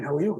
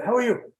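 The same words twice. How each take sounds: First: Said in the usual way. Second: Lightly voiced carer, pitched up; carer's polite greeting. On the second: Carer greeting a masked stranger, polite higher-pitched reply. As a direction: toss the question back in a higher voice.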